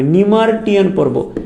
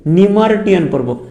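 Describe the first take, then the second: First: নিমার্টিয়ান spelled out slowly, syllable by syllable; slow clear pronunciation. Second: Said in the usual way. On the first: Shown as a demonstration. Teacher spelling out নিমার্টিয়ান for students, slow and careful. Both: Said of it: "উচ্চারণের সুবিধা হবে".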